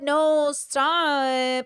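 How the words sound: It sounds playful and teasing. The refusal is part of a game. "when we're in fantasy mode"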